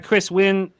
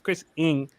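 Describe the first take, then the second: First: The surname starts with a W sound. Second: The surname starts with a vowel sound. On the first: The speaker calls it wrong. "I shouldn't say Chris Wynn" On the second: The speaker calls it right. "it's Chris Ing"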